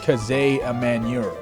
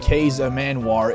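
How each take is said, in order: First: The first part of the name has two syllables. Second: The first part of the name has one syllable. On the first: The speaker calls it right. "Apparently it's pronounced" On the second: The speaker calls it wrong. "isn't actually pronounced that way"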